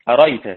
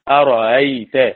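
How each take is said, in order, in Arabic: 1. الهمزة الثانية تُحذف تمامًا. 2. الهمزة الثانية تُسهَّل وتُنطق نصف نطق. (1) "قرأ الكسائي أريت" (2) "قرأ نافع بتسهيل الهمزة بين"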